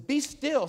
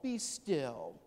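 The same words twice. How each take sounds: First: It is said sharply, like a firm rebuke. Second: It is said softly, like soothing a baby. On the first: The listener is told to snap out of it. The speaker calls it right. "snap out of it, what's wrong with you?" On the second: Comfort is offered to a frightened child. The speaker calls it wrong. "Not a gentle baby voice"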